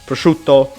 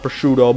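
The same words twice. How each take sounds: First: It is said with Italian pronunciation. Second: It is said with English pronunciation. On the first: This is the original pronunciation. The speaker calls it right. "this is actually how this word is pronounced" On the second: This is the anglicized pronunciation. The speaker calls it wrong.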